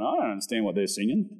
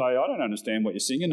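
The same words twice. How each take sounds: First: Put-on lower, quick teenage shrug of a line; a touch of a baffled teen, lower and quick; imitating his younger self. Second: A light, quick take on a puzzled mum; hint of a bemused mother, briskly; imitating Mum. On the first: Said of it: "and I'm going". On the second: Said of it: "Mum would say".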